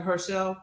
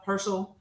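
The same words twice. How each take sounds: First: "Herschel" ending in a full -shell, her-SHELL; mispronounced Herschel. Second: "Herschel" with a reduced ending, HER-shul; corrected Herschel. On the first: Says name, then corrects it. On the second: Corrects the name just said. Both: Shown as a demonstration.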